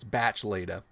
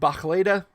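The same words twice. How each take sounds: First: The consonants in the name sound hard. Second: The consonants in the name sound soft.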